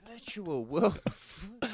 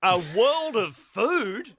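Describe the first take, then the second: First: Mock awe. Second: High, very slow disbelieving echo; incredulous echo. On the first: Mocking quote, laughing. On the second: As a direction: savour the absurd phrase. Echoing quote in disbelief. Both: Real, not acted.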